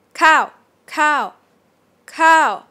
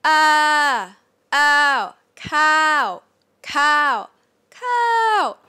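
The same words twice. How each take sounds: First: "Cow" loud, high and simply falling; straight falling tone. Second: Drawn-out "cow" held high, then dropping; up-and-down falling tone. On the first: Teacher shows the conversational version, short high falling "Cow". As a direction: start "Cow" high and just let it drop. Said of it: "start here and you just fall". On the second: Teacher shows the technical version, exaggerated high arched "cow". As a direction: stretch "Ah", "ow" and "cow" high and loud before the fall. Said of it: "supposed to be up and down". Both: Shown as a demonstration.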